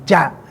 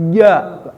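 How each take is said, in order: First: The consonant is voiceless, like English ch. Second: The consonant is voiced, like English j. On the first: The speaker calls it wrong. "Bukan ca ke bawah" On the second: The speaker calls it right. "tapi ja naik ke atas"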